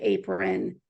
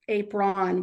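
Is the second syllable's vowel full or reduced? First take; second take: reduced; full. First: The second syllable has a reduced schwa vowel. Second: The second syllable has a full, clear vowel. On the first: The speaker calls it right. "we say apron" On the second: The speaker calls it wrong. "we don't say ap apron"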